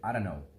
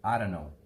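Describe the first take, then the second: First: The words are run together and reduced. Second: The same.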